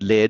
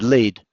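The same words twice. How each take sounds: First: It is said as the metal word. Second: It is said like the start of 'leading'. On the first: It names the metal in a pencil. "lead as in the metal" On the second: It means going in front of others. "as in I'm leading someone"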